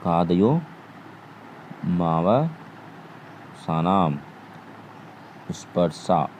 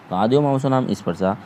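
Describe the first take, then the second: First: कादयो मावसानाम स्पर्शा spelled out syllable by syllable, very slowly and softer; slow recitation. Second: Said in the usual way. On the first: Shown as a demonstration. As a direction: recite the sutra slowly for students to memorise. (सूत्र को बहुत धीरे, एक-एक अक्षर अलग करके बोलें) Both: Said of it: "आप याद कर सकते हैं".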